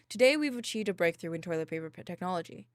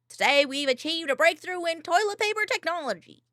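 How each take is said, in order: First: It is said in a plain voice. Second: It is said in a nerdy voice.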